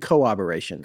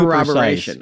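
First: The middle R sounds in the word are dropped. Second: Every R sound in the word is clearly pronounced. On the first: The speaker calls it wrong. "I was leaving out the middle R's" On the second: The speaker calls it right. "And now you're too precise"

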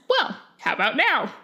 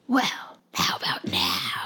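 First: It is said in a normal voice. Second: It is said in a creepy voice.

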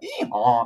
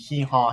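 First: It is said gutturally, deep in the throat. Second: It is said in a plain, light voice.

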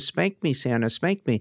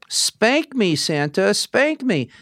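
First: The phrase is said at a quicker pace. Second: The phrase is said at a slower pace.

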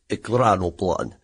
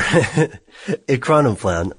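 First: The word is said with a Russian-style pronunciation. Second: The word is said with an American-style pronunciation. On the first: "the Russians describe as ekranoplan" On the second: "we would say"

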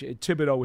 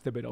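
First: The name begins with a plain t sound. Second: The name begins with a th sound. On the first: The speaker calls it right. "I got to make sure I don't pronounce the H. Thibodeau is how he says it" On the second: The speaker calls it wrong. "not Thibodeau"

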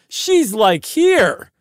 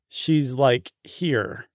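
First: It is said in an excited, surprised tone. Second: It is said in a flat, unsurprised tone.

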